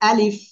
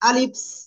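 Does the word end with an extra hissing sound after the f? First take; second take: no; yes. First: The word ends cleanly on the f sound. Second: The word ends with an added hissing sound. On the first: The speaker calls it right. "কেমন বলবো? আলিফ" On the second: The speaker calls it wrong. "অনেকে কিন্তু এরকম বলতেছে আলিফস, আলিফস। এরকম বলা যাবে না"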